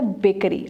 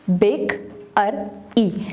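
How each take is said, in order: First: Said in the usual way. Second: बेक, अर, ई as three separate syllables; teacher sounding out बेक — अर — ई. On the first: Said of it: "bakery के हमारे पास कितने syllables". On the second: Shown as a demonstration. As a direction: break it into बेक, अर, ई, pausing after each. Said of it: "separate the syllables".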